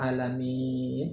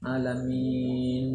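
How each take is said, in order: First: The final N is cut off abruptly. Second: The final N is held too long. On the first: "langsung putus"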